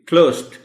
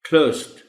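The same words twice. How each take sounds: First: The ending sounds like a light t. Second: The same.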